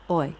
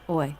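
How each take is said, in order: Both takes have the same delivery.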